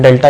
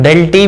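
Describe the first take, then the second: First: "डेल्टा" ending in a long aa; "डेल्टा" with final taa instead of tee; preferred pronunciation. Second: "डेल टी" ending in a long ee; "डेल टी" with final tee instead of ta; alternative pronunciation. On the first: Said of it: "हालांकि हम डेल्टा ही बोलेंगे". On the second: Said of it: "कई लोग डेल टी भी बोलते हैं". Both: Shown as a demonstration.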